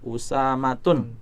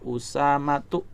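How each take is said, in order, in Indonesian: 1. Kata ini diakhiri bunyi 'n' tambahan. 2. Kata ini diakhiri vokal biasa. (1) "Salah kalau kita membacanya Usamatun" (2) "maka dibaca Usamatu"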